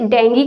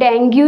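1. यह शब्द 'gee' की आवाज़ से खत्म होता है। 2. यह शब्द 'goo' की आवाज़ से खत्म होता है। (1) "इसे डेंगी कहते हैं" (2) "इसे डेंगू या डेंगू नहीं कहते हैं"

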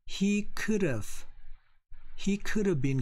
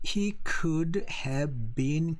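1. Could have는 줄여서 빠르게 붙여 발음해요. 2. could have의 각 단어를 완전하게 발음해요. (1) "daily conversation에서는" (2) "정확히 한다면은"

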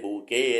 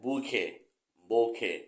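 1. พยางค์ที่สองขึ้นต้นด้วยเสียงคล้าย g 2. พยางค์ที่สองขึ้นต้นด้วยเสียง k แบบพ่นลม (1) "ไม่ใช่" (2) "ที่ถูกคือต้องเป็นบูเคหรือโบเค"

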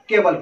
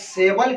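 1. यह शब्द k ध्वनि से शुरू होता है। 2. यह शब्द s ध्वनि से शुरू होता है। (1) "हम केबल पढ़ रहे हैं" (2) "सेबल के बजाय"

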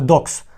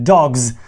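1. Слово закінчується глухим звуком s. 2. Слово закінчується дзвінким звуком z. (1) "Ми не будемо казати dogs" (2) "буде писатися буква S, але буде вимовлятися як З"

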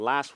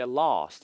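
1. 미국식 억양으로 말합니다. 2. 영국식 억양으로 말합니다. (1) "미국 발음일 때 last로 발음이 나는 건" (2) "영국 발음일 때 lost 이렇게"

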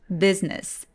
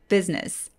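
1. business는 음절이 두 개로 소리 나요. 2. business는 음절이 두 개로 소리 나요.

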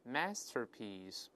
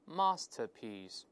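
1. 这是美式口音，发 r 音。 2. 这是英式口音，不发 r 音。

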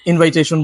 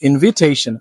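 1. দ্বিতীয় সিলেবলটি 'vai'-এর মতো শোনায়। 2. দ্বিতীয় সিলেবলটি 'vi'-এর মতো শোনায়। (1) "ইনভাইটেশন বলি" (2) "সঠিক উচ্চারণ হচ্ছে ইনভিটেশন"

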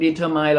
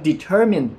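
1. พยางค์สุดท้ายมีสระ 'eye' เสียงยาว 2. พยางค์สุดท้ายมีสระ 'i' เสียงสั้น (1) "M-I-N-E, มันออกเสียงว่า, mine" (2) "ในกรณีคำนี้มันออกเสียงว่า, min, มันไม่ใช่คำว่า, my"

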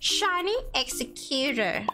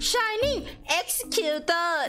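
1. พูดด้วยสำเนียงอังกฤษแบบดัดจริตค่ะ 2. พูดด้วยสำเนียงไทยธรรมดาค่ะ

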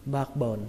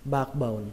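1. Âm k bị lược bỏ khi nói nhanh. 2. Âm k bị lược bỏ khi nói nhanh.

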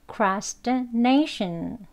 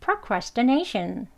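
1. 천천히 또박또박 말해요. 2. 빠르고 매끄럽게 말해요. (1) "한 번 더 해보겠습니다" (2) "그럼 이제 빨리 이렇게 발음하게 되면요"

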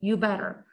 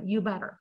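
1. 'had' 단어는 완전히 생략됩니다. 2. 'had' 단어는 완전히 생략됩니다.

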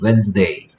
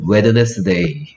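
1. 이 단어는 평소 말하는 대로 발음됩니다. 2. 철자대로 모든 글자를 소리 냅니다. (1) "읽으라 그러면 Wednesday" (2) "쓰라 그러면 Wednesday"

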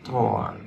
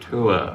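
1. Nguyên âm nghe giống or. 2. Nguyên âm trượt từ oo sang uh. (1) "to r thì là tour" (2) "u ơ là tour"

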